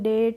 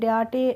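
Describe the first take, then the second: First: The vowel is an 'ay' sound. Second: The vowel is an open 'ah' sound. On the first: The speaker calls it right. "हम पढ़ेंगे" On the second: The speaker calls it wrong. "डाटे ऐसे नहीं पढ़ेंगे"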